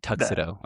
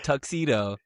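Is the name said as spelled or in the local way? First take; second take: local; as spelled. First: It is pronounced the way locals say it. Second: It is pronounced the way it is spelled. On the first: "We say Tuxedo" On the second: "it's spelled Tuxedo, but we don't say it that way"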